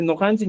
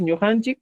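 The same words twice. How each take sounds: First: "nojanchik" with plain N and O; NO at the start. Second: "ñujanchik" with palatal Ñ and U; ÑU at the start. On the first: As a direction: begin "nojanchik" with "no". ("nojanchik" empezando con "no") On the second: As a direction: begin "ñujanchik" with "nyu". ("ñujanchik" empezando con "ñu") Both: Shown as a demonstration. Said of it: "en vez de decir nojanchik".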